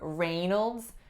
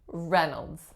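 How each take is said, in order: First: The first syllable has the long 'ay' vowel. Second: The first syllable has a short 'eh' vowel. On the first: The speaker calls it wrong. "it looks like the first syllable is Ray, but we do not hear Reynolds" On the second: The speaker calls it right. "We do hear Reynolds. The first sound is eh"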